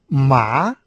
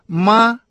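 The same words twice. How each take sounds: First: The pitch rises from mid to high. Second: The pitch stays high and level. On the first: It means hemp. "второй тон" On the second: It means mother. "первый тон"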